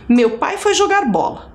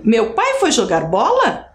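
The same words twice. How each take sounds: First: The pitch stays flat without much variation. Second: The pitch varies and rises as a question. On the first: It states a fact. "é um tom que não modifica muito, não tem variação" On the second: It asks a question. "Uma pergunta bem clara, explícita"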